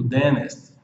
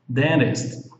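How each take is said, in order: First: The middle T sound is silent. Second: The middle T sound is pronounced. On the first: "com T mudo" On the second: "vamos seguir aqui na fonética"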